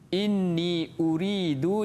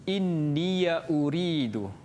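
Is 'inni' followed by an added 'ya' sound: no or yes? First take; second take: no; yes. First: The word inni ends without an added ya sound. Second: The word inni ends with an added ya sound.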